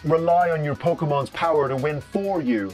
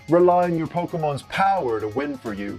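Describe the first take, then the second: First: The word 'for' carries strong emphasis. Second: The word 'for' carries no special emphasis. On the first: The speaker calls it wrong. "the way he emphasizes the word for" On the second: The speaker calls it right. "when it should probably be more"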